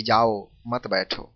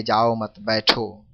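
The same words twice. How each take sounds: First: जाओ alone, then "मत बैठो" joined; slow phrasing that breaks before मत; pause after जाओ. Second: "जाओ मत" joined, then बैठो apart; group जाओ with मत, brief break, then बैठो; slow phrasing that breaks after मत; pause after मत. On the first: Same words understood the other way. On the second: Example of meaning changed by kaku. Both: Shown as a demonstration.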